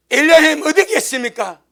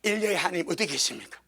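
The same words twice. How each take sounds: First: Louder cry, pitched up on 어디. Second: Said in the usual way. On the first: Retold or imitated. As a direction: call out 어디 to the sky. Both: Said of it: "뭘 합니까".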